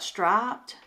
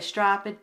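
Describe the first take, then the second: First: It is said in a standard accent. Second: It is said in a Southern accent.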